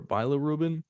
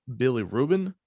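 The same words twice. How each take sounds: First: "bilirubin" with a long i, bye-luh-ROO-bin; bilirubin alternative. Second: "bilirubin" with a short i, bill-ih-ROO-bin. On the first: Offering the other way to say it, long-i bilirubin. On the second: Explaining the liver pigment, short-i bilirubin. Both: Shown as a demonstration. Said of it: "or bilirubin".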